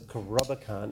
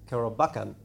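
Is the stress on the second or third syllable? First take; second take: second; third. First: The stress is on the second syllable. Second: The stress is on the third syllable. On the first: The speaker calls it wrong. "isn't right because Rob is the second, so Karobakan, that's the second syllable" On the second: The speaker calls it right. "Actually, what it would be is Karobakan"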